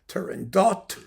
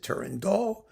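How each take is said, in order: First: The word ends with a final T sound. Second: The word ends without a final T sound.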